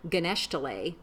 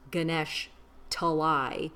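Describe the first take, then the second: First: The name runs together as one word. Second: The name is split into two words. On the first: This is how a small child misremembered it. The speaker calls it wrong. "he kept saying Ganeshtale" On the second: This is the town's real name. The speaker calls it right. "it was actually two separate words"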